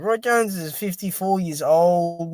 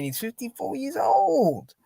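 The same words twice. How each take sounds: First: Said in the usual way. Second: Much higher, slow and disbelieving; incredulous. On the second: Real, not acted. Streamer to chat, repeating the age in high slow disbelief. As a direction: repeat it as if you can't believe it.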